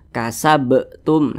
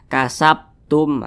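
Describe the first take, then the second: First: The b sound is released with a bounce. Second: The b sound is held with no bounce. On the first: The speaker calls it right. "mantul seperti itu" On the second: The speaker calls it wrong. "tidak ada pantulannya. Itu salah"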